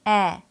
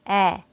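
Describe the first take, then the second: No difference in how they are said.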